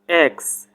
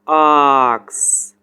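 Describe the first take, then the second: First: It is said in an American accent. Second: It is said in a British accent. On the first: "And American accent X" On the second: "British pronunciation this word ask"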